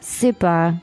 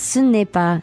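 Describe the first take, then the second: First: The 'ne' sound is dropped entirely. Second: The 'ne' sound is fully pronounced. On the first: "You don't really pronounce the ne" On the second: "But it's ce n'est pas"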